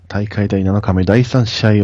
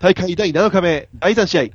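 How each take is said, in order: First: It is delivered smoothly and calmly. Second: It is delivered loudly and excitedly. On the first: The speaker calls it right. "こうやっぱこうスッとこう来るわけよ" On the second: The speaker calls it wrong. "もううるさいね"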